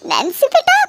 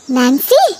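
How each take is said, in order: First: High pleading call to her daughter; mother calling out to daughter, alarmed; anxious mother calling. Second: Said in the usual way. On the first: Acted. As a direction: call her name higher, worried.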